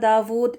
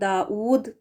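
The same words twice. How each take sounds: First: The middle consonant is a v sound. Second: A glottal stop comes before the u vowel. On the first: "वी के साथ पढ़ना दाऊद ये गलत है" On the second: "हमज़ा पेश लगाकर पढ़ना इसको दाऊद करके ये भी गलत है"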